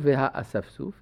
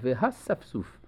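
First: The aleph is pronounced as a separate vowel. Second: The aleph is silent and not pronounced. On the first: The speaker calls it wrong. "לא והאספסוף" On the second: The speaker calls it right. "אלא והספסוף. למרות שיש שם א'"

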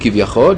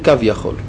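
First: It is said as one word, 'kivyachol'. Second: It is said as two parts, 'kav yachol'. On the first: "יש אומרים כביכול" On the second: "יש אומרים קו יכול"

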